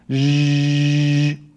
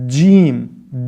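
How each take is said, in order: First: The consonant is a continuous buzzing zh sound. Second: The consonant starts with a d-like stop. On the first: The speaker calls it wrong. "the incorrect Lebanese jim" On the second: The speaker calls it right. "The proper Fusha Arabic jim has a d, d, d sound at the beginning"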